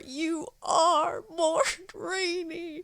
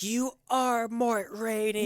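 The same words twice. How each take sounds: First: Slow, high, crying repeat of the name; tearful repeating. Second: High, slow, dazed chant of the name; drawn out like a stunned woman; dazed victim repeating. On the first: Wife keeps repeating it to him, slow high tearful voice. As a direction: whimper it out slowly through tears. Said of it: "she just keeps saying it over". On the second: Wife lying hurt on the ground, slow high dazed voice. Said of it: "she's like". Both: Retold or imitated.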